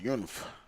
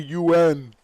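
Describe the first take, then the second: First: The name is said as a single word. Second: The name is spelled out as separate letters. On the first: "I always pronounce it as Yunf" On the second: "it could be U N"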